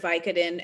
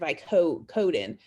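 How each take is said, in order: First: The stress is on the first syllable. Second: The stress is on the second syllable. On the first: This is the American pronunciation. "The stress is on the first syllable, the vi" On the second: This is the British pronunciation. "so the stress there is on the second word"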